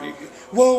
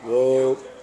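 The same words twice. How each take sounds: First: The word sounds tense and anxious. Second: The word sounds relaxed and steady. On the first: The driver is not in control and the dogs sense it. The speaker calls it wrong. "You might be a little bit nervous... they're going to sense that in your voice" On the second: The usual command the dogs recognize and obey. The speaker calls it right. "when normally it's just like whoa. They understand that that tone of voice"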